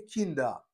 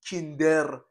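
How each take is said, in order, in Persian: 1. پایان کلمه یک صدای a سبک است. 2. پایان کلمه یک صدای واضحِ er است. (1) "آی خفیف خونده میشه" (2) "ار نگید"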